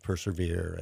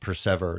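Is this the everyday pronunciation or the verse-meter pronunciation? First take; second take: everyday; verse-meter. First: It is said the usual everyday way. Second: It is said the way the verse meter needs. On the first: This breaks the poetic meter. The speaker calls it wrong. "instead of persevere" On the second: This fits the poetic meter. The speaker calls it right. "I had to get people to say what persever instead of persevere"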